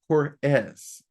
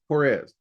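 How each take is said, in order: First: The name ends with a hissing s sound. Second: The name ends with a buzzing z sound. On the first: "the E S S" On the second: "with that E Z"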